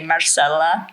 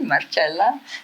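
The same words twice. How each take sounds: First: The name is said with American pronunciation. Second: The name is said with Italian pronunciation. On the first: "in America they probably say Marcella" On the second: "I say Marcella because I'm Italian, so that's how we say it"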